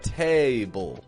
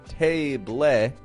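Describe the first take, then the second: First: The second syllable is quick, quiet and reduced. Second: The second syllable has a full, clear vowel. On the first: The speaker calls it right. "but table" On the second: The speaker calls it wrong. "not table"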